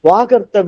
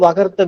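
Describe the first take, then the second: First: The first vowel is held long. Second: The first vowel is kept short. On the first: The speaker calls it right. "சமஸ்கிருதத்துல வந்து வாகர்த்த விபன் தான் வருது" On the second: The speaker calls it wrong. "தமிழ் எழுதும்போது வகர்த்த விபன் போட்டோம்... spelling mistake ஆயிடுச்சு"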